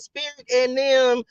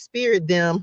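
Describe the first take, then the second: First: The word 'and' is clearly pronounced. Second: The word 'and' is dropped or shortened.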